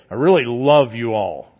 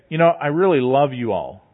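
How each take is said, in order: First: Lower, cold and insincere "I really love you all"; love spoken with a lifeless drop; sarcastic flat delivery. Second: Said in the usual way. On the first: Shown as a demonstration. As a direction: say "really" dully, meaning none of it. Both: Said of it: "your inflection, your voice".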